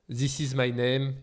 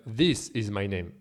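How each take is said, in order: First: "This" with a French learner's untrained th; French-accented TH. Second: "This" with a careful th, tongue between teeth; correct English TH. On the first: Teacher shows French learners' slip, "This" with untrained French th. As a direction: say "This" without the tongue between the teeth. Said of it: "we end up with words like". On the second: Teacher models the trained version, "This" with tongue-between-teeth th. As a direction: pronounce "This" with a true English th, falling tune. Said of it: "instead of". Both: Shown as a demonstration.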